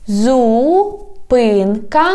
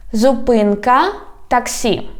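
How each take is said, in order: First: "Зупинка таксі" slow, first word in long syllables. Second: Said in the usual way. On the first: Shown as a demonstration. Teacher teaching street words, "Зупинка таксі" slowly by syllables. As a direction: draw out "Зупинка", pause, then say "таксі". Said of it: "divide it into syllables". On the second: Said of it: "I read the whole word".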